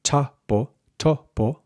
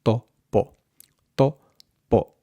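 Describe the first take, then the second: First: Puffed English t on ta and to, higher; aspirated to, po, syllables apart; breathy t before po, pitched up; English-style topo. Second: To, po with no puff of air; tongue on teeth for to, then muted po; unaspirated to, po, syllables apart; Spanish dental t. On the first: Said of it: "So rather than". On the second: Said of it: "tongue against the back of your teeth". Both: Shown as a demonstration.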